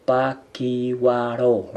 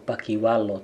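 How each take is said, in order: First: Pakiwaro slow with a clear R; correct pronunciation. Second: Pakiwalo with an L instead of the R; wrong pronunciation. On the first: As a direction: say pakiwaro slowly, stressing the R. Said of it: "tapi pakiwaro". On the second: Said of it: "bukan pakiwalo". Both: Shown as a demonstration.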